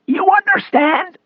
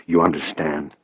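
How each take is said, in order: First: Slow, high rasping question, rising; mock the agent's question in a strained rasp; defiant rasp. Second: Said in the usual way. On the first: A narrator's reading. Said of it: "doing his best to stand up to him".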